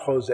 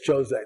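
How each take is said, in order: First: The name is said with English-style sounds. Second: The name is said with Portuguese sounds. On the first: The speaker calls it wrong. "it's not Jose" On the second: The speaker calls it right. "in Portuguese it's José, that's how it's pronounced"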